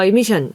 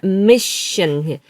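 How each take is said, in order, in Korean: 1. 가운데 자음은 그냥 짧은 sh예요. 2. sh 앞에 s 소리가 살짝 들어가요. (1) "아니라" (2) "시옷 받침 같은 소리가 살짝 들려야 돼요"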